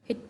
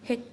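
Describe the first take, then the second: First: The vowel is short, like 'i'. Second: The vowel is short, like 'i'.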